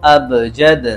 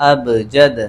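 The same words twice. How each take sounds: The two takes are said the same way.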